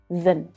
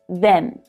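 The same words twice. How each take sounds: First: The vowel is reduced to a weak schwa. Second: The vowel is a full 'e' sound. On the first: "these words are unstressed... reduce down to the schwa sound" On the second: "the e vowel sound"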